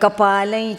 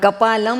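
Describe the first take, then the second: First: The final nasal blends into the next word. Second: The word ends with a clear m sound. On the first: The speaker calls it right. "એમ બોલવું પડશે" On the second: The speaker calls it wrong. "કપાલમ નહીં બોલાય"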